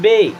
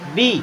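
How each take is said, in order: First: The vowel is a short eh sound. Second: The vowel is a long ee sound. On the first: The speaker calls it wrong. "बी ई को पढ़ेंगे बे" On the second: The speaker calls it right. "बड़ी ई की मात्रा की तरह"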